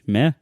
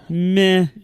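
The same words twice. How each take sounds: First: The word is said in a neutral, questioning way. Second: The word is said in a flat, apathetic way. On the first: The speaker calls it wrong. "am I pronouncing that right?" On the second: The speaker calls it right. "you have to sound more apathetic"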